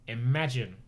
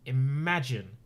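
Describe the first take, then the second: No difference in how they are said.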